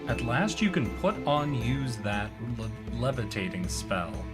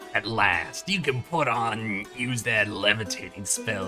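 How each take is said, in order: First: It is read in the speaker's normal voice. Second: It is read in a put-on goblin voice.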